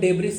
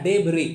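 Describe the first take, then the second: First: The word ends with an s sound. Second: The word ends on a vowel, no s. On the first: The speaker calls it wrong. "इसका pronunciation डेब्रिस नहीं होता" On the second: The speaker calls it right. "इसको डेबरी पढ़ा जाता है"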